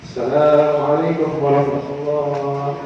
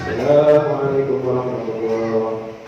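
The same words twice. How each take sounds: No difference in how they are said.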